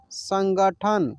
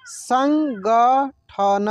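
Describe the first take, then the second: First: Said in the usual way. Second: संगठन stretched slowly, syllables apart; slow syllable reading. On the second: Shown as a demonstration. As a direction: sound out संगठन slowly for learners. (संगठन को धीरे धीरे अक्षर अलग करके) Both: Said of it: "जैसे जैसे मैं पढ़ रहा हूँ ना".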